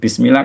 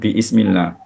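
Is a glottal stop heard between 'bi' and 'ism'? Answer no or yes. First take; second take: no; yes. First: The syllables run together with no glottal stop. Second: A glottal stop is heard before 'ism'. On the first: The speaker calls it right. "Bismillah kan bukan bi'ismillah" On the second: The speaker calls it wrong. "bukan bi'ismillah"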